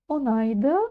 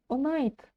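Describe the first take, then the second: First: The word ends with a final vowel. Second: The final vowel is dropped, ending on consonant. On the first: "верны два варианта" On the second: "букву «ы» можем практически не произносить"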